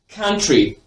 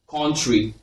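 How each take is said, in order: First: The first vowel is a short, open 'uh' sound. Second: The first vowel is a rounded 'o' sound. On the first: The speaker calls it right. "you're just slightly opening your mouth and saying the sound" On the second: The speaker calls it wrong. "people mispronounce this sound as O"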